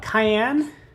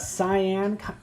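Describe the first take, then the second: First: It sounds like the pepper name, cayenne. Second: It sounds like sigh-an, unlike the pepper. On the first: The speaker calls it wrong. "I might be saying it wrong" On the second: The speaker calls it right. "I think it's cyan. It's not like cayenne pepper"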